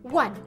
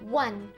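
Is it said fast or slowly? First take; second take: fast; slowly. First: It is said at a faster pace. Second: It is said at a slower pace.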